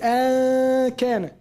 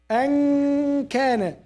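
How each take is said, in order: First: The n is pronounced clearly at the tongue tip. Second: The n is nasalized and moved back toward k. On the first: The speaker calls it wrong. "You don't say an kana. Where is the makhraj?" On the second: The speaker calls it right. "And you now at the end you stress kaf"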